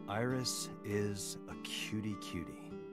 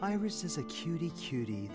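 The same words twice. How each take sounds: First: It is said flatly, without enthusiasm. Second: It is said warmly, with enthusiasm.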